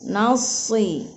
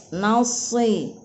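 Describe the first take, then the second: Both takes have the same delivery.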